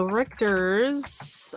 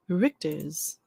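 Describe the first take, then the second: First: Slow, drawn-out German-accented name; Richter's said slowly in a mock German accent. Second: Richter's with a German accent, rolled and careful; Richter's in a light put-on German accent. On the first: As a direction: stretch it out the German way, Richter's rising at the end. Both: Shown as a demonstration. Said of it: "I don't know why I have to have the accent".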